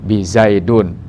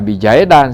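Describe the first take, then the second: First: The word ends with a u vowel sound. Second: The word ends with an a vowel sound. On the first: "Apalagi bizaidun, salah" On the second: "Jangan dibaca bijaidan, salah"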